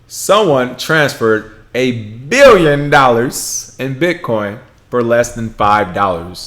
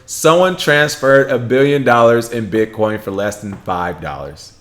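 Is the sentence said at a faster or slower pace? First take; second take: slower; faster. First: The sentence is spoken at a noticeably slower pace. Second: The sentence is spoken at a normal, quicker pace.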